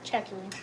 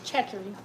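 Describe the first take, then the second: First: The name is said with a non-Louisiana pronunciation. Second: The same.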